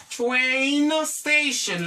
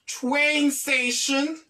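First: "Train station" with TRAIN drawn out long; demonstrated pronunciation. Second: Said in the usual way. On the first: Shown as a demonstration. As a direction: stretch out "Train" before saying "station". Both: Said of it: "like this".

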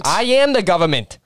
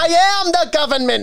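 First: Put-on higher-pitched New Jersey accent; lightly copied New Jersey accent. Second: High, loud New Jersey accent. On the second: Shown as a demonstration. Showing a friend again, loud New Jersey accent. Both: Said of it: "I want you to do New Jersey".

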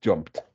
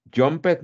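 First: Jumped in one syllable ending in a short t, jompt; jumped clipped to one beat, lower, with a final t; correct pronunciation. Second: Jumped said as two syllables, jump-ed, with a spoken e; Jumped with an extra vowel, a little higher and louder; wrong pronunciation. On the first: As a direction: say jumped as jumpt, no extra vowel. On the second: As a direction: sound out Jumped as jompet, the mistake to avoid. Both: Shown as a demonstration.

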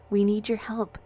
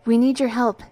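First: Friendly smiling request; gently encouraging appeal; with a smile. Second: Louder, higher urgent plea; pressing appeal, pitched up; quick, urgent. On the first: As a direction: say it with a smile, fairly easy. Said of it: "I said with a smile". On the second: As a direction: get it out quickly and forcefully. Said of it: "I said quickly". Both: A narrator's reading.

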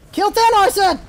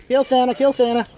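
First: Higher, exasperated order; insistent command. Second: Said in the usual way. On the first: Real, not acted. Gamer repeating an ignored order, insistent command. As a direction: insist on being obeyed.

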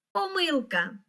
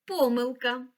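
First: Помилка with the stress on the и, поМИлка; first stress variant. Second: Помилка with the stress on the first о, ПОмилка; second stress variant. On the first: Teacher shows the first correct stress of помилка to a pupil. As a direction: say помилка stressing the second syllable. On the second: Teacher shows the other correct stress of помилка to a pupil. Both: Shown as a demonstration. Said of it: "це слово має подвійний наголос".

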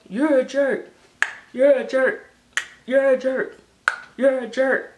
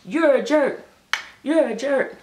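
First: Repeated mock insult, louder and higher; playful teasing, louder and higher. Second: Playful teasing. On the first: Vlogger trading mock insults, louder and higher. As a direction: tease them right back, raising the voice. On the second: Playful teasing back and forth. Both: Real, not acted.

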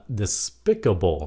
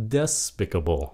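First: DESPICABLE stressed as de-SPIC-able; American stress. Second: DESPICABLE stressed as DES-picable; stress on first syllable. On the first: Teacher shows how Americans say it, de-SPIC-able. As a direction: hit the second syllable of DESPICABLE. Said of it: "nhấn âm hai". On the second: Teacher repeats the older reading, DES-picable stressed up front. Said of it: "nhấn âm một". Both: Shown as a demonstration.

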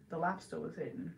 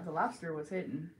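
First: "lobster" as "lobsta"; r-less pronunciation. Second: "lobster" ending in an r; pronounced with R. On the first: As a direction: drop the final r of "lobster". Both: Shown as a demonstration. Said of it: "I think I say lobster".

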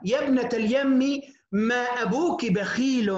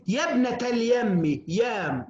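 First: Said in the usual way. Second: Drawn out, slow classical recital; slow, stately recital of a classical line; slow recitation. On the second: Shown as a demonstration. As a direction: recite it slowly like old poetry. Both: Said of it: "حتى في العرب يقولون".

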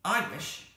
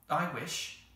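First: High, loud, abrupt outburst; sudden. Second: Measured, slightly raised wishing; more slowly. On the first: Jane suddenly makes her own wish, abrupt. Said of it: "said Jane suddenly". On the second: Anthea makes her second wish, more slowly. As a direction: make the wish deliberately. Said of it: "said Anthea more slowly". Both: A narrator's reading.

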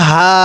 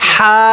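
First: হা with a slight sound in the throat; হা said with an audible rasp; throaty ha. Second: হা with a breath of air pushed out of the mouth; হা said as a breathy h; airy ha. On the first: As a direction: give হা a little throat friction. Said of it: "এই হাটা উচ্চারণ করার সময় একটু শব্দ হবে". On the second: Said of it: "এই হাটা উচ্চারণের সময় মুখ দিয়ে বাতাস বের করব". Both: Shown as a demonstration.

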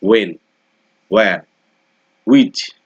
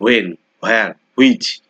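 First: When, where, which with a clear rounded w, which punched; correct way. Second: When, where, which as students usually say them; common wrong way. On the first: Teacher modelling the proper pronunciation to students. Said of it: "আমাদের বলতে হবে". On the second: Teacher showing the mistaken pronunciation students make. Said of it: "এই উচ্চারণগুলো কিন্তু আমরা ভুল বলি". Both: Shown as a demonstration.

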